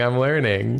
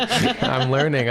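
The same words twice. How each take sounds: First: Said in the usual way. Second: Laughing. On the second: Real, not acted. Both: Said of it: "until you learn".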